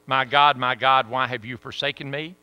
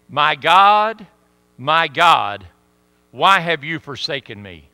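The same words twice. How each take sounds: First: Said in the usual way. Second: Anguished cry. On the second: Acted. Quoting Christ's cry, loud.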